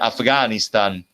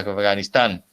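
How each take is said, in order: First: The stress follows the Italian placement. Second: The stress follows the Spanish placement. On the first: "lo que cambia es la posición del acento" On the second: "en vez de"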